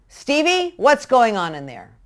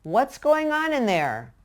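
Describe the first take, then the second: First: Higher, louder sharp call of the name; accusing shout. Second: Slow, easygoing call to the next room; calm, casual call. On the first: Parent yells a child's name from the other room. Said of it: "As opposed to". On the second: Parent calls calmly to kids in another room. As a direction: ask lightly, as if it hardly matters. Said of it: "react very calmly". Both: Shown as a demonstration.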